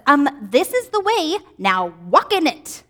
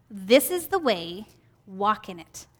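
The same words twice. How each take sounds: First: Firm, slow, pointed mommy teacher tone; not calm. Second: Soft, slow and tender; gentle voice. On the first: Teacher voicing God correcting a stubborn child, firm and pointed. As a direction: lay it down like a parent who knows better. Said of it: "not saying it in a calm voice". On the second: Teacher voicing Jesus guiding her path, gentle and soft. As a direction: say it gently, like a guiding whisper behind you. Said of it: "I said that in kind of a gentle voice". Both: Shown as a demonstration.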